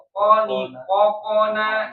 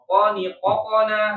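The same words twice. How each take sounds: First: The vowel after the consonant is a full vowel. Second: The vowel after the consonant is a quick bounce. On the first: It is read as an ordinary fathah vowel. "itu harokat fathah" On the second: The letter bounces as qalqalah. "kalau dia mantul, ... lebih cepat"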